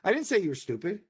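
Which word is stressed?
none. No single word is stressed. "I didn't emphasize any one of those words"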